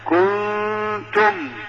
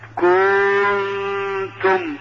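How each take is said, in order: First: The vowel of the letter is crisp and short. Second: The vowel of the letter is overdone and drawn out. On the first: The speaker calls it right. "لا كنتم" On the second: The speaker calls it wrong. "هذا خطأ"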